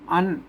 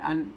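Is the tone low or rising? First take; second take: rising; low. First: The word is said with a rising tone. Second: The word is said with a low tone. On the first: This is the Tai Yuan pronunciation. "ไตยวนละนาเพิ่นออกเสียงจัตวา" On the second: This is the standard Thai pronunciation. "ภาษาไทยเพิ่นออกเสียงเอก"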